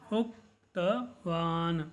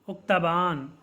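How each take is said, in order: First: उक्तवान drawn out as उक्-त-वान, syllables apart; slow syllable by syllable. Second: Said in the usual way. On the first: Shown as a demonstration. Teacher drills the class on a Sanskrit word, slowly. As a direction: break उक्तवान into slow pieces. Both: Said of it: "इस प्रकार से आपको इन शब्दों का उच्चारण करना है".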